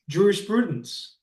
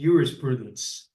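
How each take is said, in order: First: The word begins with a J sound. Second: The word begins with a Y sound. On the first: This is the modern way to say it. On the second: This is how ancient Romans said it.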